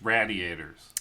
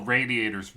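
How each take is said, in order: First: "radiators" with a short a, as in "rad"; first vowel of radiators short, like radical; hometown pronunciation. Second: Said in the usual way. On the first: Shown as a demonstration. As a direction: say RADIATORS as "raddiators". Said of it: "people call radiators radiators". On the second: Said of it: "in my hometown, people call radiators radiators".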